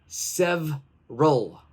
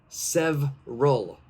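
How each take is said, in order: No difference in how they are said.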